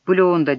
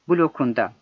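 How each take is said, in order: First: The k sound is softened to a soft g. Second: The k sound is kept hard. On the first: The speaker calls it wrong. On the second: The speaker calls it right.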